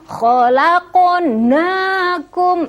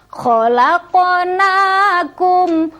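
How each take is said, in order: The two takes are said the same way.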